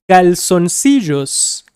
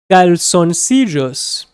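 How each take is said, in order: Both takes have the same delivery.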